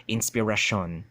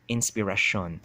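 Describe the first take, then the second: First: The R is retroflex. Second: The same.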